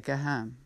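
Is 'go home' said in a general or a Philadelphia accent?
Philadelphia. The O vowels have a distinct Philadelphia sound. "you'd say go home"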